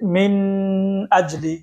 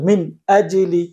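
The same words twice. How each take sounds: First: The n is held with a nasal hum. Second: The n is said clearly without nasal hum. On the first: The speaker calls it wrong. "কেউ যদি পড়ে যে মিন আজলি, তাহলে এটা কি হবে? অশুদ্ধ হবে।" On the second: The speaker calls it right. "এটা স্পষ্ট করে পড়তে হবে"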